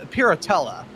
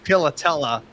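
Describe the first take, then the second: First: The middle consonant is a plain English R. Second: The middle consonant sounds like an L. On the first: "that's kind of the Americanized pronunciation of it" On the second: "the R kind of rolls and it sounded like an L"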